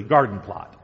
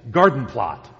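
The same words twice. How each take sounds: First: Garden plot repeated lower, garden stressed; low emphatic repeat. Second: Garden plot said louder, leaning on garden; stress on garden plot. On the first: Preacher repeating the meaning, low and stressed on garden. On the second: Preacher explaining a Greek word, stressing garden plot. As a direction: hit garden hard in garden plot. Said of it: "which means, of all things". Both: Shown as a demonstration.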